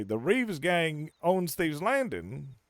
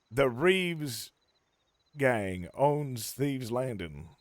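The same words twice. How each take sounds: First: Slow disbelieving echo of The Reeves gang owns Thieves Landing, rising at the end; incredulous repeat. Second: Said in the usual way. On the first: Retold or imitated. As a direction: repeat her claim back slowly as if it's absurd. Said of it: "I say". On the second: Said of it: "and I quote".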